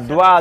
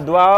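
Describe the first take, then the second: Both takes have the same delivery.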